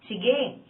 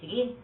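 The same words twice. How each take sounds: First: It is said brightly and cheerfully, with a smile. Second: It is said in a low, sullen, snapping voice. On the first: The speaker agrees gladly. "masigla at nakangiti" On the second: The speaker threatens or agrees only reluctantly. "Pabulong at padungaw, pasinghal"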